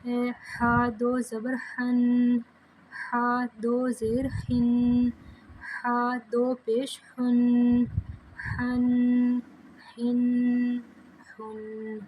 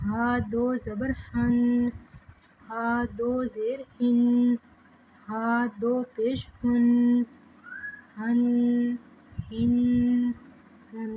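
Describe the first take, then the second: First: Slow chant with ہا pressed from the middle of the throat. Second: Slow chant with ہا breathed from the lower throat. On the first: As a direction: squeeze ہا from mid throat, slowly. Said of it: "حلق کے درمیان والے حصے سے". (حلق کے درمیان سے ہا پڑھنا) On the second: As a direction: draw ہا from deep low in the throat. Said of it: "حلق کے نچلے حصے سے". (حلق کے نچلے حصے سے ہا پڑھنا) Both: Shown as a demonstration.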